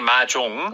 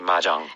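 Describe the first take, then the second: First: The second syllable has an 'oh' vowel. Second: The second syllable has an 'ah' vowel. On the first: "it has an O in it" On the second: The speaker has a more American-type accent. "that O might become an ah sound"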